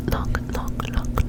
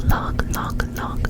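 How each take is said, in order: Both takes have the same delivery.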